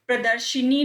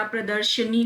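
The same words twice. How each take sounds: First: प्रदर्शनी said "pra-dar-shi-nee"; "shi-nee" ending on प्रदर्शनी; wrong inserted vowel. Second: प्रदर्शनी said "pra-dar-sha-nee"; short "a" after sh in प्रदर्शनी; "sha-nee" ending on प्रदर्शनी; correct vowel. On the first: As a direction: put an "i" after sh in प्रदर्शनी. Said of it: "प्रदर्शनी नहीं होता". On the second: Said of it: "प्रदर्शनी होता है". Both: Shown as a demonstration.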